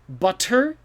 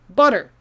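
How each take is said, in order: First: The middle consonant is a crisp T sound. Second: The middle consonant is a soft D sound. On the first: "maybe if you're trying to be fancy" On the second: "It sounds like a D"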